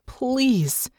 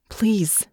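First: A high, aching please; pleading. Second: A breathless whispered please; begging whisper. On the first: Natasha begging Irene not to hand her to Hansen, high and aching. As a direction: reach out to her with it. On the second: Natasha pleading with Irene in a desperate whisper. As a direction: beg under your breath. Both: A narrator's reading.

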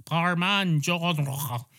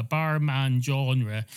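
First: "Barman Genre" slow and higher, with a throaty French r in "Genre"; French pronunciation. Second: Said in the usual way. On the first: Shown as a demonstration. Cat imitating audiobook narrators, exaggerated French pronunciation of "Genre". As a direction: draw out "Barman Genre", hamming up the French ending. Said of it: "pronounce French names in a French accent". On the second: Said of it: "if the French person was called".

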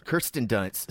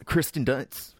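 First: Kirsten said KUR-sten, r after the vowel; corrected name. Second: Kirsten said as KRIS-ten, r before the i; mispronounced name. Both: Real, not acted.

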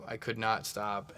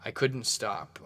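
First: "I could not stop" said slowly with NOT split out and hit hard; slow down and lean on "not" in "could not"; stress on NOT. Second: Said in the usual way. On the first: Shown as a demonstration. Host admitting his shopping spree, stressing "not" slowly.

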